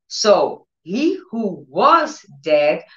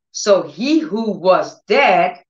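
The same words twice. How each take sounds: First: Even slower, stretching each word; slower emphatic. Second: Drawn out slowly, each word weighted; slow emphatic. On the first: Preacher repeating the miracle line slowly. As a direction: drag it out for weight. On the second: Preacher slowing for the key words. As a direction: let it land slowly. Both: Acted.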